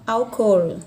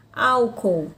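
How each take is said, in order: First: ÁLCOOL as "al-COL", ending on a clear l; Spanish pronunciation. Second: ÁLCOOL stressed on the first syllable, AL-co; Portuguese stress. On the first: Teacher contrasts the Spanish word, stress on COL. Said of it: "na língua espanhola". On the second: Teacher gives the Portuguese example, stress on AL. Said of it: "Na língua portuguesa eu tenho a palavra". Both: Shown as a demonstration.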